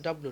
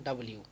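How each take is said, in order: First: "ডাব্লিউ" shortened to "dablu"; wrong two-syllable "dab-lu"; clipped W. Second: "ডাব্লিউ" as "da-bli-u"; letter W with every syllable sounded; full W. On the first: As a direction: drop the i glide from "ডাব্লিউ". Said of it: "ওটা কিন্তু ডাব্লিউ নয়". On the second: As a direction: let "ডাব্লিউ" end in li-u. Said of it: "ডাব্লিউ এর উচ্চারণ কেমন". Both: Shown as a demonstration.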